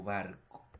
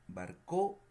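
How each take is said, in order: First: "barco" with the weight on "BAR"; stress on first syllable. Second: "barcó" with a loud, high final "CÓ"; stress on last syllable. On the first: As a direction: say "barco" as BAR-co, falling away at the end. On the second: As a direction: punch the end of "barcó", wrong on purpose. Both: Shown as a demonstration. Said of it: "donde cargamos la voz".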